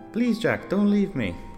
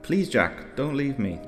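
First: It is said in a little girl's voice. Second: It is said in his normal voice.

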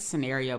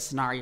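First: The word has a plain, everyday pronunciation. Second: The word has a fancy, posh-sounding pronunciation. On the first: "I think it's a scenario" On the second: "scenario is a bougie way to say it"

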